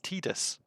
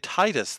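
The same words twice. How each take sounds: First: The first syllable sounds like 'tee'. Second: The first syllable sounds like 'tide'. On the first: This is the official way. The speaker calls it right. "but it's Titus" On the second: This is the speaker's own preferred way. The speaker calls it wrong. "I would say Titus then"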